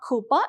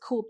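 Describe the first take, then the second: First: The word ends with an added vowel sound. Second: The word ends without an added vowel sound. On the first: The speaker calls it wrong. "It is actually not coupa" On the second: The speaker calls it right. "it is coupe. The pronunciation is different"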